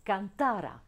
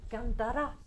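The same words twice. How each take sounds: First: Cantara stressed on TA, falling after; "cantara" with weight on TA and a falling end; stress on middle syllable. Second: Cantara stressed on the final RA, as future cantará; "cantara" rising onto its last syllable. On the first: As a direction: hit can-TA-ra in cantara. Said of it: "ou un imparfait du subjonctif". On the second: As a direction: push the end, can-ta-RA, in cantara. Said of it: "qu'un futur". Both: Shown as a demonstration.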